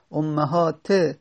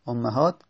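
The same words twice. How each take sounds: First: امهات drawn out slowly to a final "-te"; kasra ending. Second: Said in the usual way. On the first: Shown as a demonstration. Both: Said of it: "کسره گرفته".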